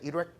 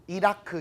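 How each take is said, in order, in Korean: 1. 두 음절로 발음하고 'irek'처럼 발음해요. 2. 세 음절로 발음하고 'keu'로 끝나요. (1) "이런 식으로 나옵니다" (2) "이라크 이런 발음 없어요"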